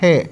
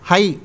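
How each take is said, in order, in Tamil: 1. உயிர் ஒலி வெறும் 'e' ஒலி. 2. உயிர் ஒலி 'ai' போன்ற இரட்டை உயிர் ஒலி. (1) "ஸ்போக்கனில் போகிறப்ப ஹே அப்படிங்கிறது சொல்லுவாங்க" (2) "ஹை அப்படின்னு தான் அதை ப்ரொனவுன்ஸ் பண்ணணுங்கிற அவசியம் கிடையாது"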